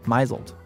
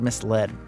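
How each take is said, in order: First: It is said as my-zled, with a z sound. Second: It is said as mis-led, with an s sound. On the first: The speaker calls it wrong. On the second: The speaker calls it right.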